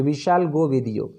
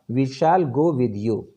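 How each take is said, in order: First: Said in the usual way. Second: Shall pressed slow and firm; stress on shall. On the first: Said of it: "normal future में हैं, तो". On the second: Shown as a demonstration. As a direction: push hard on shall, determined. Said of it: "जोर लगा के अगर आपने बोला". (shall पर ज़ोर देकर, दृढ़ता से)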